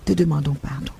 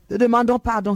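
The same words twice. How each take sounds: First: Said in the usual way. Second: Higher, louder plea for pardon. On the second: Real, not acted. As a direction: cry out for forgiveness. Prayer repeat, louder emphatic.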